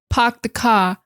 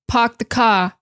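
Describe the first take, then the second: Both takes have the same delivery.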